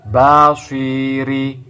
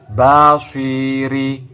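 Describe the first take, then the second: First: The 'si' vowel is short. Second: The same.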